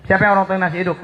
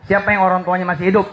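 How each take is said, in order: First: Said in the usual way. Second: Fast, rattled-off question to the crowd; quick rushed ask; rapid question. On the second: Shown as a demonstration. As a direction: fire it off quickly. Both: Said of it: "repeated question".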